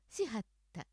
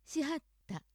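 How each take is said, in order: First: 京都アクセントのしはった; Kyoto accent. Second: しはった in Osaka accent, pitch held up; 大阪アクセントのしはった. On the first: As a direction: say しはった the Kyoto way, dropping down. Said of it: "京都アクセント、". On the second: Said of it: "大阪アクセント、". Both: Shown as a demonstration.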